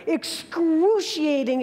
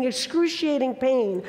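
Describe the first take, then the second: First: "excruciating" stretched slowly, a bit higher; drawn-out excruciating. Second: Said in the usual way. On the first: Retold or imitated. Recalling the sting to the audience, a slow, drawn-out word. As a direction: let "excruciating" linger slowly. Describing the jellyfish sting pain.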